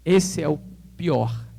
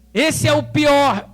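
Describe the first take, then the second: First: "esse é o pior" drawn out slowly, each word weighted; slow emphasis. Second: "Esse é o pior" raised, louder and very slow; high emphatic repeat. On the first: Friend warning about the worst notary office, slow and weighty. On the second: Friend repeating the warning, raised and emphatic. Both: Retold or imitated. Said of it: "ele falou o seguinte".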